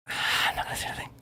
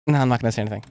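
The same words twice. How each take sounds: First: Quick, breathy whisper with a sigh first; sigh, then whisper it fast as a secret. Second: Said in the usual way. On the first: Shown as a demonstration. Repeats the line in a whisper.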